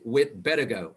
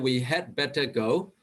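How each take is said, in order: First: Had is reduced to a short d sound. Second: The word had is said fully and separately. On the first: The speaker calls it right. "We just say we'd better go" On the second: The speaker calls it wrong. "We don't say we had better go word by word"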